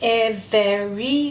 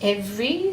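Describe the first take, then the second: First: The word is said with three syllables. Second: The word is said with two syllables. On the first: This is a careful voice used to recall the spelling. "you're saying an extra syllable when you're using your spelling voice" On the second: This is everyday speech. "not just every"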